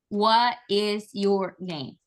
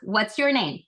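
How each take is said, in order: First: What and is are said as separate words. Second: What and is are merged into one syllable. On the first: The speaker calls it wrong. "you don't ask them" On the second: The speaker calls it right. "You ask"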